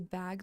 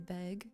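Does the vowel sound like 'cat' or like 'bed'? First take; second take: cat; bed. First: The vowel sounds like the one in cat. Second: The vowel sounds like the one in bed. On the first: "a lot of people don't say bag" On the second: "they'll say beg"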